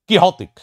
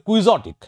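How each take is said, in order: First: The middle is said with an 'h' sound. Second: The middle is said with a 'ks' sound. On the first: The speaker calls it right. "আসলে" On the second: The speaker calls it wrong. "আমরা উচ্চারণ করি"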